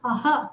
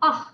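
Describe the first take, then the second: First: The final h is a full, strong h. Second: The final h is a soft breathy release. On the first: The speaker calls it wrong. "आह नहीं बोलना" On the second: The speaker calls it right. "केवल ऊष्म type का आह आह ऐसे बोलना है"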